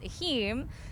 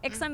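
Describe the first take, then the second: First: The x is said as an h sound. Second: The x is said as an English ks sound. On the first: The speaker calls it right. "the actual way to say it is Ahim" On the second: The speaker calls it wrong. "Ixum is the Americanized version"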